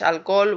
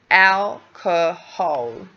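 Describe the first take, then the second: First: The word is said quickly in two syllables. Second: The word is said clearly in three syllables. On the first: The speaker calls it wrong. "we can't say alcohol. Yeah, that's we do that in Spanish" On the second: The speaker calls it right. "we do need to create two, uh, th sorry, three syllables"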